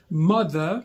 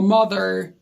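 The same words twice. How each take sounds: First: It is said with a British accent. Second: It is said with an American accent.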